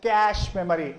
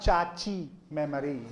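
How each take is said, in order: First: Cache is one syllable, like cash. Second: Cache is two syllables, with an added final vowel. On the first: The speaker calls it right. "It has to be pronounced as cache memory" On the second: The speaker calls it wrong. "and not chachi memory"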